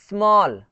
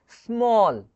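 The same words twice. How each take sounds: First: "स्मॉल" loud, its vowel opened to "aa"; mispronounced small. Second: "स्मॉल" slow, with a rounded long "aw"; correct AW sound. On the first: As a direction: model the mistake "स्मॉल" as "smaal". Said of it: "ऐसा नहीं". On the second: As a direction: model "स्मॉल" as "smawl", vowel drawn out. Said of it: "इसको कैसे पढ़ेंगे". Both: Shown as a demonstration.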